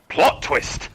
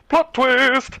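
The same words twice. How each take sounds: First: It is said in a normal voice. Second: It is said in a high, jovial voice.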